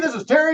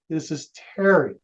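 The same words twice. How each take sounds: First: It is spoken quickly and briskly. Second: It is spoken slowly and calmly. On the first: The caller sounds like a pushy city slicker. The speaker calls it wrong. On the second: The caller matches a slower-talking listener. The speaker calls it right.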